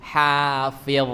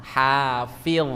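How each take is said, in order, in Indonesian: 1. Konsonan terakhirnya bunyi tebal. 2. Konsonan terakhirnya bunyi tebal.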